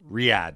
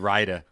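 First: The name is said in its standard form. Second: The name is said in a mangled form. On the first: The speaker calls it right. "What did you call it?" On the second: The speaker calls it wrong. "I said Raida. Damn it"

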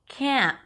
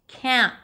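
Both takes have the same delivery.

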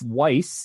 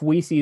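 First: The surname sounds like 'Weiss'. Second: The surname sounds like 'Weesey'. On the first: The speaker calls it wrong. "I need to correct you" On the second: The speaker calls it right. "So now we know it's Weesey"

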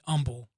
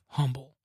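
First: The h sound at the start is dropped. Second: The h sound at the start is pronounced. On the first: This is how people in the South say it. "people here in the South say humble" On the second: This is the usual way to say it. "instead of humble"

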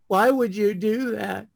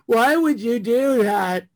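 First: It is said with little emotional intensity. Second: It is said with more emotional intensity.

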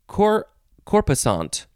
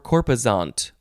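First: The middle consonant is an S sound. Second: The middle consonant is a Z sound. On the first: "with an S or Z sound" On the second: "with an S or Z sound"

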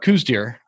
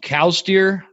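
First: The first word rhymes with 'coos'. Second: The first word rhymes with 'cows'. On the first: "you can pronounce them cows deer or coos deer" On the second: "you can pronounce them cows deer or coos deer"

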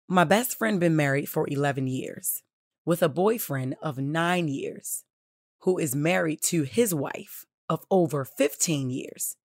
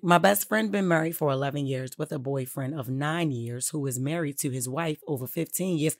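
First: It is read slowly, in separate chunks. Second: It is read fast, as one run-on.

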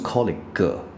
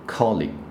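First: The word ends in a full extra syllable. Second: The word ends in a brief g from the throat. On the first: The speaker calls it wrong. "不是G 哥哥" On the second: The speaker calls it right. "所以G 就是喉咙捏一下这样子"

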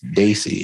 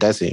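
First: The first vowel sounds like 'day'. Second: The first vowel sounds like 'deh'. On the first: The speaker calls it right. "My apologies. Daisy" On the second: The speaker calls it wrong. "I've been pronouncing it wrong. I said Desi"

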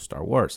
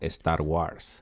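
First: It is said in a standard English accent. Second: It sounds like 'Estar Guars', with a Mexican accent. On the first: "as opposed to Star Wars"

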